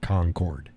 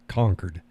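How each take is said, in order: First: The word is said the way it is spelled. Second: The word is said the local way. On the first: The speaker is not from the area. The speaker calls it wrong. "It's not Concord" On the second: The speaker is from the area. The speaker calls it right. "It's Concord"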